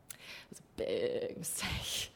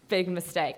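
First: Soft, low whisper of "big mistake"; whispered aside. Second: Said in the usual way. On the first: Real, not acted. Narrator confiding to audience, hushed whispered aside. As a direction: drop to a hushed confession.

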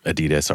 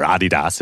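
First: Said in the usual way. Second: "Adidas" the German way, AH-dee-dahs; German pronunciation. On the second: Shown as a demonstration. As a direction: say "Adidas" as Germans do, stressing the first syllable. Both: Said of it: "as you would say in, in Germany".

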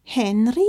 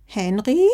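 First: Wide awake. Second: Drowsy grandma calling out; sleepy good morning. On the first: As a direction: alert grandma calling out. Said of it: "Jetzt klang Omama wirklich erschreckend wach". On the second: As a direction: call the name half asleep. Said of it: "Omamas verschlafene Stimme". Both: Acted.

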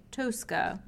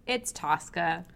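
First: Tosca said with a long oh, TOH-ska; pretentious Tosca. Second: Tosca said with a flat American ah, TAHS-ka. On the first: Retold or imitated. Mocking pretentious opera snobs, long-o Tosca. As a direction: Tosca with a round Italian o, lightly mocking. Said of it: "super pretentious people say". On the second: Shown as a demonstration. Hosts settling the name, American Tosca. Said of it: "Or as super pretentious people say".

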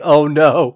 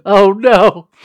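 First: Dismayed oh no. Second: Louder dismayed wail. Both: Retold or imitated. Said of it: "and I was like".

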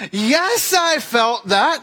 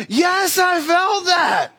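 First: Higher pitched, slowed, pained yes; pained reply. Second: Much higher, slowed, strained yes; exasperated pained reply. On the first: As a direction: let the hurt leak into a slow answer. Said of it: "I was like". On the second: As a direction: squeeze it out through the pain, begging. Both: Retold or imitated.

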